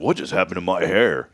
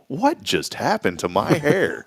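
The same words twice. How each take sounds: First: The tone sounds dismayed and upset. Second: The tone sounds delighted and amazed. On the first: The haircut turned out badly. The speaker calls it wrong. "You're not going to leave there with this attitude" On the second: The haircut turned out wonderfully. The speaker calls it right. "You're going to leave there with this attitude. Wow"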